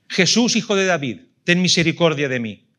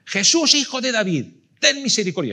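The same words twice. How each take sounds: First: Loud, higher plea called across a crowd; beggar's loud cry for mercy; crying out to Jesus. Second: Much higher, louder desperate shout; shouting even louder. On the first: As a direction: shout it out as a blind beggar begging for mercy. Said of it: "empieza a gritar". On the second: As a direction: cry out with everything, over the crowd. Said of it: "grita más fuerte todavía". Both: Retold or imitated.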